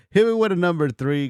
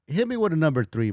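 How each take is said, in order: First: Laughing, louder call to chat. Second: Said in the usual way. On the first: Real, not acted. Streamer laughing as he calls chat to vote.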